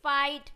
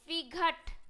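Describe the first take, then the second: First: The gh is silent and the vowel glides. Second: The gh is pronounced as a g sound. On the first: The speaker calls it right. "जी एच तो silent हो गया" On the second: The speaker calls it wrong. "गलत है"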